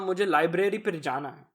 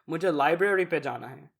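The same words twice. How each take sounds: First: It is said with a strong Indian accent. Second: It is said with an American accent. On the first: The speaker sounds natural to the family. The speaker calls it right. "That's correct" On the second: The speaker sounds culturally out of touch. The speaker calls it wrong. "That just makes you sound whitewashed"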